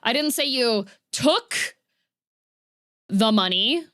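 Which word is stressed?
took. The stress falls on the word took. "implying that a different action happened there"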